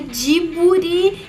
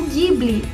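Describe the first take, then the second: First: The word ends with a separated 'buri' sound. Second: The word ends with a tight 'bli' cluster. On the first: This is the Japanese adaptation of the name. "no original é Djibouti" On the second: This is the Italian word for the wind. "se você estiver falando em, em italiano"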